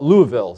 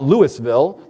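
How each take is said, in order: First: The name is pronounced the way locals say it. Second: The name is pronounced in a non-local way. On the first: The speaker calls it right. "The locals call it Louisville" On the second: The speaker calls it wrong. "It's not Louisville"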